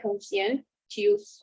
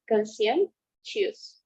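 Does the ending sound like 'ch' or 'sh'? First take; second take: ch; sh. First: The ending is said with a ch sound. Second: The ending is said with a sh sound. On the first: The speaker calls it wrong. "It's not like T, okay? It's not like" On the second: The speaker calls it right. "It's like S H"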